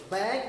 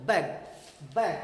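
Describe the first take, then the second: First: बैग, long stressed middle vowel. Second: बैग short, punched on the B; बैग with a forceful B onset. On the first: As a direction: say बैग pushing the A, not the B. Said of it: "ए पर जोर देना गलत". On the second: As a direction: say बैग hitting the ब, quick vowel. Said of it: "बी पर force देना है". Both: Shown as a demonstration.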